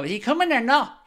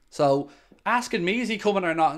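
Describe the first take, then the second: First: High, bratty mock of a rude commenter; snotty mimicry. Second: Said in the usual way. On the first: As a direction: whine "or not" like a spoilt kid. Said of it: "your snotty attitude and just go". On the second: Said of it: "just go".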